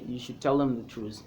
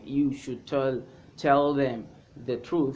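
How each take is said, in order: First: 'Them' is shortened to 'em'. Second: 'Them' is said fully with its first sound. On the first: "You can say" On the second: "instead of saying"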